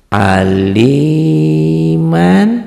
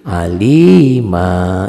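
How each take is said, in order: First: The word ends with an 'an' sound. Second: The word ends with a long 'a' vowel. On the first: The word is read in connected recitation. "patahnya dua ya" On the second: The recitation stops on this word. "Apabila dihentikan jadi alima"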